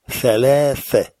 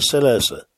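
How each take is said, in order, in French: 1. Les consonnes se prononcent avec un son th. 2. Les consonnes se prononcent avec un son s. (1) "On fait bien attention à prononcer thalatha" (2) "ni salasa"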